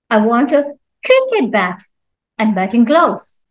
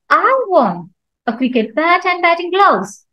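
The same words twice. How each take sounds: First: The stress falls on the word cricket. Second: The stress falls on the word I. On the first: It must be a cricket bat, not another bat. "Cricket means not anything else" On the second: Nobody else wants them. "So here I'm stressing on I"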